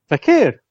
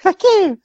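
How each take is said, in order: First: It is said in a normal voice. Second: It is said in a high-pitched Bee Gees voice.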